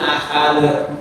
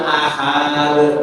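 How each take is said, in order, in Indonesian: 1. Vokal setelah h tetap dibaca pendek. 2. Vokal setelah h dibaca panjang. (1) "ahad bacanya pendek" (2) "membaca ha pada ahad itu panjang"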